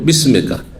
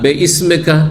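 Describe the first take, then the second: First: Bi and ismika run together as bismika. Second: Be and ismeka are said as separate parts. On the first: The speaker calls it right. "শুদ্ধ হচ্ছে বিসমিকা" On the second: The speaker calls it wrong. "আমাদের ছোট কালে এইভাবে মুখস্থ করে"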